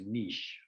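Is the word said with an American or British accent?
British. It is said the British way, French-like.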